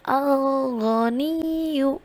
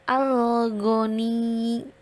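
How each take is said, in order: First: The word ends with a short vowel after the doubled sound. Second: The word ends on a pressed, held consonant without a vowel. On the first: The word is read in the middle of a sentence. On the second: The reading stops at this word.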